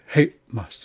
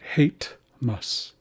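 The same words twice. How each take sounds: First: A glottal stop separates the two syllables. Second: A T sound joins the two syllables. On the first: The speaker calls it right. "It's a pause. It's hate mas" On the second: The speaker calls it wrong. "it's not hate mas. There's no T sound there"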